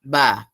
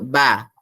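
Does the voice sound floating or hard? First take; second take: hard; hard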